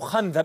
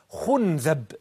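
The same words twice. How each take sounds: First: The first vowel is a. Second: The first vowel is u. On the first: "بالفتح" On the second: "الضم"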